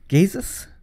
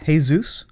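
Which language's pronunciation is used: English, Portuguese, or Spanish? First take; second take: Portuguese; Spanish. First: The name starts with a soft 'zh' sound. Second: The name starts with a breathy 'h' sound. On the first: "in Portuguese they would call him Jesus" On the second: "Spanish, Jesus"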